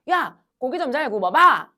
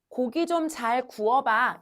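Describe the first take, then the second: First: Louder, blunt Gyeongsang dialect delivery. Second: Said in the usual way. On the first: Shown as a demonstration. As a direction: say it like a Gyeongsang local at the grill. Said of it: "경상도 가면 얘들아". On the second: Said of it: "이렇게 얘기 안 하고".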